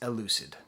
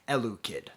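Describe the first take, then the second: First: The name ends with a soft 'sid' sound. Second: The name ends with a hard 'kid' sound. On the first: The speaker calls it right. "I know his name is pronounced Elucid" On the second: The speaker calls it wrong. "I joke about mispronouncing his name"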